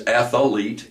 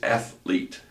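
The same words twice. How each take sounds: First: Athlete with an extra syllable, ath-uh-lete; wrong athlete. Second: Athlete in two clean syllables, ath-lete, said softly; correct athlete. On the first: Teacher showing the common athlete mistake. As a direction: stretch athlete into three syllables. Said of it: "No such word as athlete". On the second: Teacher giving the right athlete quietly. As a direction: say athlete with no extra vowel. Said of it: "It's athlete". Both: Shown as a demonstration.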